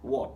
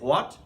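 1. শব্দটি w ধ্বনি দিয়ে শুরু হয়। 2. শব্দটি একটি জোরালো h ধ্বনি দিয়ে শুরু হয়। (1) "এখানে আমাকে বলতে হবে লাইক ও এর মতো অনেকটা, একটু হয়ে টাচ হবে" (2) "এখানে হয়ের মতো উচ্চারণটা হবে না, যেটা আমরা কথাবার্তায় সবসময় হ বলি"

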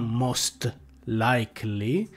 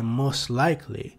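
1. La parola 'most' si pronuncia con la T finale. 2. La parola 'most' si pronuncia senza T finale. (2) "most non ha quella T finale"

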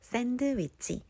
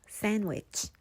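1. D 소리는 발음해요. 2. D 소리는 묵음이에요. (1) "샌드위치 대신에" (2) "D가 묵음되는 단어들"

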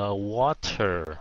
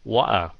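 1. Chữ T ở giữa được phát âm rõ ràng. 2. Chữ T ở giữa bị bỏ hoàn toàn. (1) "người Anh phát chữ này là water" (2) "khi mà người Anh nói nhanh, họ bỏ cái chữ T luôn"

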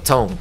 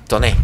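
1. El nombre termina sin vocal final. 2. El nombre termina con una vocal final pronunciada. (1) "Así que ton" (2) "Toné suena muy mal"

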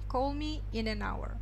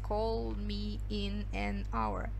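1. Слова "in an hour" произносятся слитно. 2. Слова "in an hour" произносятся отдельно. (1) "как одно слово in an hour" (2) "Не надо читать call me in an hour. No, never"

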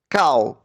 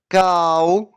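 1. Слово вимовляється швидко і коротко. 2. Слово вимовляється повільно і протяжно. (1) "А тепер швидко" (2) "Тепер промовимо це слово повільно"

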